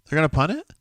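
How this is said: It is said as a rising question.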